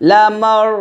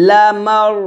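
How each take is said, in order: No difference in how they are said.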